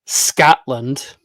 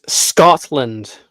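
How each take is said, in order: First: "Scotland" said loud and slow with an "a" vowel, like "Scatland"; wrong pronunciation. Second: "Scotland" said loud and slow with a round "o", "Scot-lund"; correct pronunciation. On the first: Vlogger showing how reactors mangle "Scotland", mocking mispronunciation. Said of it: "And it's not Scotland". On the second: Vlogger correcting how YouTubers say "Scotland", emphatic. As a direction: drive home the "o" in "Scotland". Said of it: "It's Scotland". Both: Shown as a demonstration.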